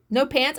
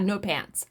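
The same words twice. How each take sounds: First: No pants rising in disbelief; husband hearing the story, incredulous; incredulous question. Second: No pants low and softer, falling; answering her husband, deadpan; flat confirmation. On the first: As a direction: ask No pants as if it can't be true. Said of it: "he was like". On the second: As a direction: state No pants flatly as plain fact. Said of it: "I said". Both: Retold or imitated.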